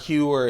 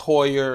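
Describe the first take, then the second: First: The first vowel sounds like 'you'. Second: The first vowel sounds like 'oy'. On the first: The speaker calls it wrong. "someone told me that it's not Heuer" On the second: The speaker calls it right. "it's Hoyer"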